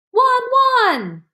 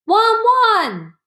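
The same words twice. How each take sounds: First: Very high, loud "Wan, wan!" ending in a whimper; a last bark that breaks into a cry; crying dog bark. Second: High, loud barking "Wan, wan!"; loud dog bark. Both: A narrator's reading. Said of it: "Hachiko barked loudly".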